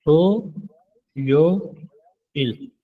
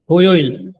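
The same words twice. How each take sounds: First: थो, यो, इल each apart with pauses; syllable by syllable. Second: थोयोइल said whole, louder, as a model; model pronunciation. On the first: Korean teacher spelling थो यो इल syllable by syllable. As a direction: split थो यो इल slowly into syllables. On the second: Korean teacher modelling थोयोइल loudly for the class. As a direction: say थोयोइल clearly with the थो silent-ending rule. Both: Shown as a demonstration. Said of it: "पढ़ा जाएगा there तो थो".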